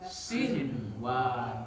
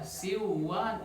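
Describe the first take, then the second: First: The n sound before w is pronounced clearly. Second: The n sound before w is dropped. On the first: The speaker calls it right. "Nun matinya harus dibaca jelas" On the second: The speaker calls it wrong. "nggak bisa dibaca siwan, enggak"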